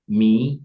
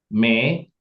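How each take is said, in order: First: The vowel sounds like 'ee'. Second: The vowel sounds like 'eh'. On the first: The speaker calls it right. "mi ya, bukan me" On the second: The speaker calls it wrong. "bukan me"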